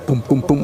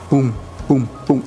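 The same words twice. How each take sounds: First: The beats are said quickly, close together. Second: The beats are said slowly, spaced apart. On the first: The heart is beating faster. "Si vamos más rápido, pues el ritmo va a ser" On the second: The heart is beating calmly. "Si vamos más lento, estamos tranquilos"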